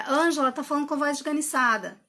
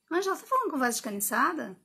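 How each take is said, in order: First: "Ângela tá falando com a voz esganiçada" as a flat, falling verdict; said as a statement. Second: "esganiçada?" asked, curious question tune. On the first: Coach showing the judging version, falling statement. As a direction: close "esganiçada" with a full stop. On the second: Coach turning judgment into a question, questioning tune. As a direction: check it, don't sentence it. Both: Shown as a demonstration. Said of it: "eu já mudo a entonação".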